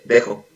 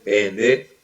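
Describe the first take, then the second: First: Only the last two syllables are said, quickly. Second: All three syllables are said in full. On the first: "nunca dice la palabra completa de pendejo. Siempre nada más dice dejo" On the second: "así la palabra tal cual"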